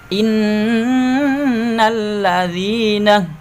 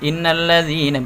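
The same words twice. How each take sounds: First: The double n has a held nasal hum. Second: The double n has no nasal hum. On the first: The speaker calls it right. "gunnah musyaddadah harus uh, dengung" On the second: The speaker calls it wrong. "jangan innal ladzina, berarti enggak ada dengungnya"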